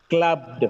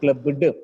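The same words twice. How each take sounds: First: The b runs straight into d, no vowel. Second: A vowel sound is added between b and d. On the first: The speaker calls it right. "There should not be a vowel sound in between b and d" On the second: The speaker calls it wrong. "not clubbed"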